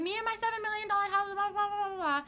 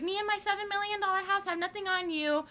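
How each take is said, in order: First: High, fast snooty mimic; mocking the rich woman. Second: High snooty mimic of the mom; mocking the rich woman. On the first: Teen mocking the rich mom again, fast high snooty voice. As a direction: rattle it off high and snobby. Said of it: "She was like". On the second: Teen mocking the rich mom's boast, high snooty voice. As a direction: sneer it up high like a snob. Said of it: "and she was like".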